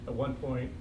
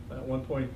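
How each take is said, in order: Both takes have the same delivery.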